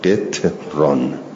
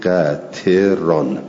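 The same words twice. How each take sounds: First: It has vowel i, no second vowel: qitran. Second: It has vowels a and i: qatiran. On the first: "به کسر قاف و اسکان تا" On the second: "بر وزن فعلان"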